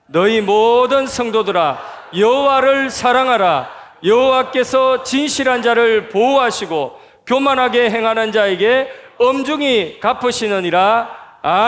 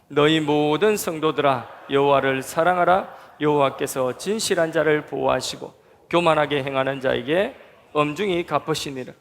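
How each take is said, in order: First: It is read in a loud voice. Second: It is read in a softer voice.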